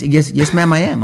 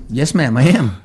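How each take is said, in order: First: Higher, firm and proud; emphatic. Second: Plain, offhand answer; nonchalant. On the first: Shown as a demonstration. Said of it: "It doesn't make any sense". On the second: Retold or imitated. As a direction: say it simply, like it's nothing. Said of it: "just plainly, nonchalantly just said".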